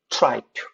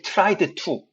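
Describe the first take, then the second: First: The d sound before 'to' is dropped. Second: The d sound before 'to' is pronounced. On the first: The speaker calls it right. "try만 발음하고 그냥 to로 넘어가시면 돼요" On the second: The speaker calls it wrong. "절대"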